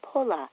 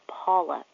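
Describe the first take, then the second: First: The name is said with an 'o' vowel. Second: The name is said with an 'aw' vowel. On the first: This is how an immigrant family first said it. "my parents pronounced Paula like Pola" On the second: This is the standard American way to say it. "the American pronunciation of my American first name is Paula"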